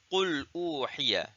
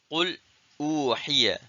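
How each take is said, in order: First: There is no pause after qul. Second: There is a brief pause after qul.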